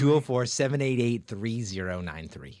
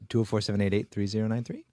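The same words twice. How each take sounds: First: It is said slowly and loudly. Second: It is said quickly and quietly.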